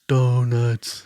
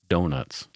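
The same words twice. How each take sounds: First: It is said as a Homer Simpson impression. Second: It is said in a normal voice.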